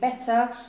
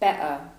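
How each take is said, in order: First: The T is pronounced as a clear T. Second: The T is replaced by a glottal stop. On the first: "instead of saying better" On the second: "we would say better"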